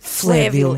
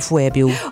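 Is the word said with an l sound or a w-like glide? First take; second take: l sound; glide. First: It is said with a clear l after the f. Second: It is said with a w-like glide after the f. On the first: The speaker calls it right. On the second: The speaker calls it wrong.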